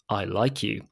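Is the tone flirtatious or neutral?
flirtatious. It is said in a warm, flirtatious way. The speaker is romantically interested in the listener. "The second one made me blush a little bit"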